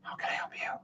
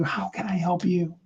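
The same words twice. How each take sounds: First: Barely audible whisper to someone else; faint whisper. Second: Breathy whispered offer of help. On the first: Coach shows whispering the question to someone else. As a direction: let the whisper almost vanish. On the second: Coach demonstrating a whispered offer to help. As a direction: whisper it close, like a secret. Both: Shown as a demonstration. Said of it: "You can whisper to somebody else".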